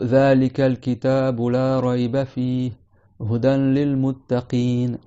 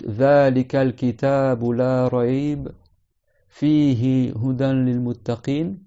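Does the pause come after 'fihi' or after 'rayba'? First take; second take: fihi; rayba. First: There is a pause after 'fihi'. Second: There is a pause after 'la rayba'.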